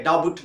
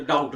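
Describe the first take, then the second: First: डाउट with the b voiced before the t; sounded B. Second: डाउट, the b dropped; silent B. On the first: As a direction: say डाउट wrongly as "da-but". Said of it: "डाउट नहीं होगा". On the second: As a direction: say डाउट with no b before the t. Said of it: "बी को silent". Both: Shown as a demonstration.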